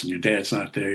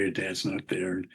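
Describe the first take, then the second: First: Said in the usual way. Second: Softer and slower, trailing off; quiet sad echo. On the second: Real, not acted. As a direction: let the words sink, quietly. Echoing line, quiet and slow.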